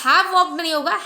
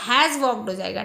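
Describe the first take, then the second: First: "have walked" said louder, rejected firmly; wrong form rejected. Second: "has walked" said lower and settled, as the answer; right form given. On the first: Teacher rejects the student's wrong "have walked", emphatic. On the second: Teacher gives the class the right answer "has walked", settled. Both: Shown as a demonstration.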